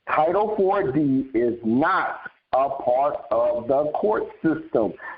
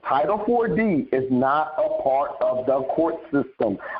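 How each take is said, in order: First: It is spoken slowly and deliberately. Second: It is spoken at a normal pace.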